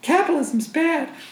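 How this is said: It is said in a put-on mocking voice.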